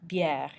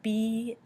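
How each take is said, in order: First: Said in the usual way. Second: "bière" slowly split into bee and air; sounded out. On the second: Shown as a demonstration. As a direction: stretch both halves of "bière". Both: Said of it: "goes E. So bière".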